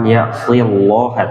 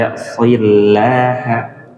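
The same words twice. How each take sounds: First: The L sound is heavy and dark. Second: The L sound is light and thin. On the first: The speaker calls it wrong. "Bukan ya'fillaha" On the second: The speaker calls it right. "tapi ya'fillaha; masih tipis karena sebelumnya kasrah"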